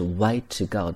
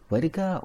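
First: Each word is said separately with a full 'to'. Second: The words are linked, with 'to' said as 'da'. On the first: "如果我没有连读的话，分开读那是way to go" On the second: "人们会将to 发成da da"

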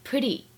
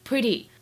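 First: The t is softened toward a d sound. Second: The same.

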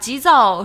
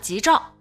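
First: It is said with standard Mandarin pronunciation. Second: It is said with a southern-accented pronunciation. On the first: The speaker calls it right. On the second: The speaker calls it wrong.

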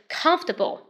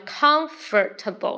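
First: The middle 'or' sound is left out. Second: The middle 'or' sound is pronounced. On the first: "OR 不用发" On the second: "第一种叫"

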